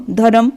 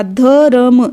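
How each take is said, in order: First: Said in the usual way. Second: धर्म sounded out as dha-ra-m; drawn-out demo. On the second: Shown as a demonstration. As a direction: stretch धर्म, putting र before म. (धर्म को खींचकर, ध-र-म) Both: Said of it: "म से पहले बोला जाएगा".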